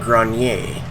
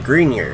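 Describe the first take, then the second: First: The name is pronounced with French sounds. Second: The name is pronounced with English sounds. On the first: This is the speaker's own preferred pronunciation. "I pronounce it the French way" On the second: This is how others pronounce the name. "I think is how they're pronouncing that"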